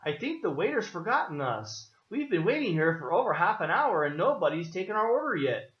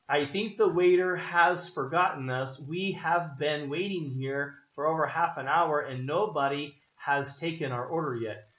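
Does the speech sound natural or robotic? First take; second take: natural; robotic. First: It sounds fluent and natural, with contractions. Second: It sounds stiff and robotic, like a computer.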